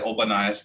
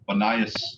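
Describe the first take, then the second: First: The word starts with an o sound. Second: The word starts without an o sound. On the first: "You could say Obanias" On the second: "I usually don't pronounce the O personally. Banias is how I would say it"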